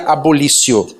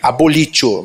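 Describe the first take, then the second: First: The middle consonant is an 's' sound. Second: The middle consonant is a 't' sound.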